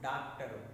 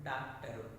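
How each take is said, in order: Both takes have the same delivery.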